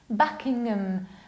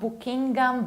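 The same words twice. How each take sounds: First: The ending is reduced and weak. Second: The ending is said fully and clearly. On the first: The speaker calls it right. "You need to reduce ngam" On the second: The speaker calls it wrong. "It's not Buckingham"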